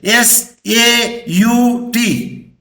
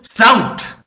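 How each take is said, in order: First: Each letter is said separately. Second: The letters are said together as one word. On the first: The speaker calls it wrong. "Can you pronounce like that?" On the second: The speaker calls it right. "we'll say"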